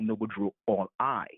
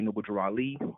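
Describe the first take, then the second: First: The last name is said as 'all eye'. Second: The last name is said as 'ah-lee'. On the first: "some would say Noble Drew All I" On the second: "when they say Noble Drew Ali"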